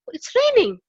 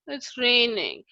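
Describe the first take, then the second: First: It sounds surprised. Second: It sounds annoyed.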